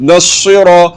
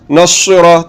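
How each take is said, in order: No difference in how they are said.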